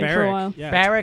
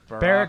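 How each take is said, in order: First: The name is said with a Canadian accent. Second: The name is said with a standard accent.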